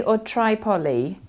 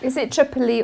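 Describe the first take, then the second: First: Tripoli said TRY-poly; long-i Tripoli. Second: Tripoli said TRIP-uh-lee; short-i Tripoli. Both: Shown as a demonstration. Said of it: "The first one".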